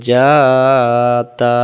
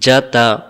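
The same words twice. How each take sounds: First: The vowels are stretched out long. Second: The vowels are said short and quick. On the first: The speaker calls it wrong. "এখানে চারটি অক্ষর উচ্চারণ হয়ে গেছে টান দেওয়ার কারণে" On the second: The speaker calls it right. "টেনে টেনে পড়া যাবে না"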